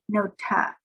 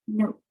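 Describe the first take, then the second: First: An extra vowel sound follows the final consonant. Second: The word ends cleanly on the final consonant. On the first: The speaker calls it wrong. "We do not want to say nota" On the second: The speaker calls it right. "just note"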